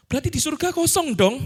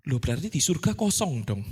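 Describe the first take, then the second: First: A critic's taunting question, pitched up; mock objection. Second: Said in the usual way. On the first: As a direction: throw the objection back, raised and mocking. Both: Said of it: "ada tuduhan ya".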